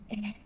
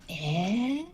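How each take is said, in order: First: It sounds sad and downcast. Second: It sounds thoughtful and hesitant.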